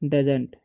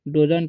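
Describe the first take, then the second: First: The first vowel is a short 'uh' sound. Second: The first vowel is a long 'oh' sound. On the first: The speaker calls it right. "तो इसे पढ़ते हैं हम लोग डजंट" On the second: The speaker calls it wrong. "डोजंट नहीं पढ़ेंगे"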